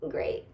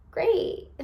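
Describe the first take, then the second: First: Soft breathy laugh through the word; laughing sarcastic repeat. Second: Higher pitched mock-cheerful great; sarcastic great. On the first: Real, not acted. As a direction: laugh it off, barely voiced. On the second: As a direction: toss off a fake-happy great. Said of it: "And I was like".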